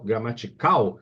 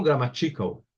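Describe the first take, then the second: First: "Gramatical" with a strong final "cal"; tônica em CAL. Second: "grammatical" wrongly stressed on "ti"; tônica errada em TI. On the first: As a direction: land hard on the last syllable of "Gramatical". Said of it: "A sílaba tônica é cal". ("Gramatical" com força no "cal" final) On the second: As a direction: say "grammatical" as gra-ma-TI-cal. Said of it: "eu não falo grammatical". ("grammatical" com força errada no "ti") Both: Shown as a demonstration.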